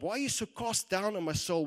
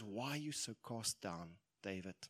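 First: Loud, high, challenging question; forceful self-rebuke. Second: Soft, low question to oneself; quiet self-questioning. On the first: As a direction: demand an answer from your own soul. David challenges his own soul. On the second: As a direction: murmur it to your own reflection. David gently questions his reflection. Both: Acted.

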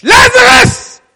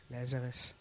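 First: Huge high shout of "Lazarus!"; Jesus crying out to the dead man; loud cry. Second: Low, soft call of Lazarus; a soft call that gets corrected; quiet calling. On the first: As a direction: cry out "Lazarus!" at full force. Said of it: "He cried out in a loud voice". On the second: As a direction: murmur "Lazarus" gently, low. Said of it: "No, the Bible says this". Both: Acted.

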